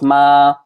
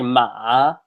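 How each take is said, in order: First: The pitch stays level and flat throughout. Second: The pitch drops low, then rises slightly. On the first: "it stays flat ... that's your first tone" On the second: "drops down really low and then comes up a little bit"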